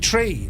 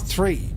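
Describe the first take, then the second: First: The word begins with a plain 't' sound. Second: The word begins with a 'th' sound. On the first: The speaker calls it right. "Tree is actually tree" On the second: The speaker calls it wrong. "It's not three"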